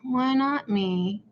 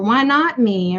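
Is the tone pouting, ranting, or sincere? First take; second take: pouting; ranting. First: It is said with a sulky, pouting tone. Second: It is said with an angry, ranting tone.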